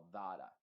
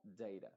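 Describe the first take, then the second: First: "data" said with a flat A like "dara"; alternative vowel. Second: "data" said as "deira", with the "ei" sound; usual ei vowel. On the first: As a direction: say "data" with the open A, not "ei". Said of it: "se puede pronunciar como data también". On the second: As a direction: say "data" the common way, with "ei". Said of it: "muchos lo pronuncian como data". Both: Shown as a demonstration.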